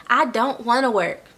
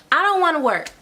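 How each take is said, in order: First: Said in the usual way. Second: Higher, mock whiny I don't wanna; reluctant whine.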